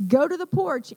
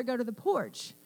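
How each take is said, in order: First: Firm, emphatic warning command; cautioning voice. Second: Said in the usual way. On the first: Shown as a demonstration. Nana warns Georgia there might be danger, cautioning command. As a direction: demonstrate the voice that means possible danger. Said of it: "in that voice". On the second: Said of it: "in that voice, you better".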